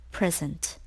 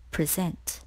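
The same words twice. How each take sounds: First: "present" as PREZ-ent, the noun; stress on first syllable. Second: "present" as pri-ZENT, the verb; stress on second syllable. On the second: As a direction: hit the last syllable of "present". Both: Shown as a demonstration. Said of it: "can be pronounced in two ways".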